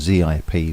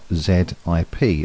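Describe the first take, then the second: First: The letter Z is said as 'zee'. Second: The letter Z is said as 'zed'.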